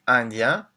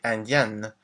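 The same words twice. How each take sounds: First: Indien with a nasal ending, no final N sound; French pronunciation. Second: Indienne with a clearly sounded N at the end; French pronunciation. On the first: Teacher showing students the masculine form, slow and clear. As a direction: say indien slowly, nasal vowel at the end, no N. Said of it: "we say indien". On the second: Teacher showing students the feminine form, slow and clear. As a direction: say indienne slowly, closing on a clear N. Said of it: "we say indienne". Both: Shown as a demonstration.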